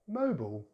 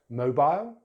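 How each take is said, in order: First: "mobile" as MOH-bul; American "mobile" with reduced ending; American pronunciation. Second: "Mobile" as MOH-bile; British "Mobile" rhyming its end with mile; British pronunciation. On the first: Teacher contrasts accents, "mobile" as MOH-bul. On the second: Teacher contrasts accents, "Mobile" as MOH-bile. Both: Shown as a demonstration. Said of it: "British English or American English".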